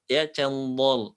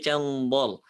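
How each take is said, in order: First: Slow cendol with the heavy dha; mock cendol for practice; joking heavy cendol. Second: Cendol drawn out with the heavy dha; slow heavy cendol. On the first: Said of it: "tapi cendol". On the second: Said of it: "bukan beli cendol". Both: Shown as a demonstration.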